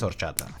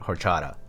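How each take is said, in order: First: The word starts with no h sound. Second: The word starts with an audible h sound. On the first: This is the original Spanish way of saying it. "But yes, it is horchata" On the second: This is the American English way of saying it. "in English people call it hor- horchata"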